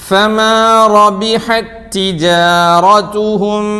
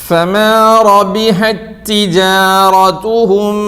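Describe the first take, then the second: Both takes have the same delivery.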